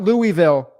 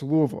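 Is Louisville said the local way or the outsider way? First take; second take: outsider; local. First: The name is said with an outsider pronunciation. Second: The name is said with the local pronunciation. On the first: The speaker calls it wrong. "not Louisville" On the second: The speaker calls it right. "but it's Louisville"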